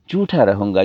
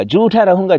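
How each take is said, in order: First: Said in the usual way. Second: Higher and louder second take; the echo of "झूठा रहूँगा" lifted high and louder; raised emphatic repeat. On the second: Shown as a demonstration. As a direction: push the repeat up hard. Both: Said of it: "repeated line, second one raised".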